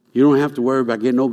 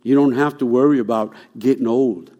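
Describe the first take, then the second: First: Rushed, fast run-through of the same line; fast repeat. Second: Said in the usual way. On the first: Shown as a demonstration. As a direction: rattle it off fast the second time.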